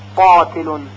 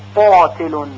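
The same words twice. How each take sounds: No difference in how they are said.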